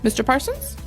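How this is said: It sounds like a light, simple question. The speaker is politely confirming who the person is. The speaker calls it right. "makes it into a simple question. She's just double checking"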